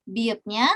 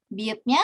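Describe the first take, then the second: No difference in how they are said.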